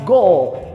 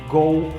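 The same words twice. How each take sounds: First: The word ends with a clear L sound. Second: The word ends with a U-like vowel sound. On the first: The speaker calls it right. "no inglês eu vou falar go" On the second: The speaker calls it wrong. "nós pronunciamos com som de U"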